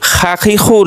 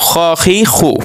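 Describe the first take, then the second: First: খা খি খু with a thin "aa" in খা; mistaken open vowel. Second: খ খি খু with a full "aw" in খ; correct rounded vowel. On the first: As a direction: start with খা as open "khaa". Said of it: "না". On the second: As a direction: start with খ as rounded "khaw". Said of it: "এটা একটা ব্যতিক্রম". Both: Shown as a demonstration.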